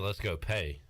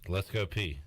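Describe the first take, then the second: First: The last word sounds like 'pay'. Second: The last word sounds like 'pee'. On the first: The speaker calls it wrong. "We don't say let's go pay" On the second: The speaker calls it right.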